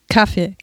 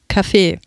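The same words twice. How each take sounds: First: The stress is on the first syllable. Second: The stress is on the second syllable. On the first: "Meine Bekannten betonen es auf der ersten Silbe" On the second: "betonen es auf der zweiten Silbe"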